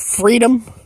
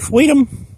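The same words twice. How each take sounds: First: The R in freedom is pronounced as a normal R. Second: The R in freedom is replaced by a W sound.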